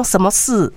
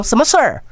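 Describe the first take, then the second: First: 什么事 with a flat 事 and no curled 儿; Taiwanese way. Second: 什么事儿 with a curled retroflex 儿 ending; mainland erhua. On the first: Host showing how Taiwanese say it, no erhua. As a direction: say 什么事 plainly, tongue not rolled. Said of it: "咱就讲什么事". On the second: Host demonstrating how mainlanders say it, curled erhua. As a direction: roll the tongue back on 事儿 like a mainlander. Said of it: "因就讲什么事儿". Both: Shown as a demonstration.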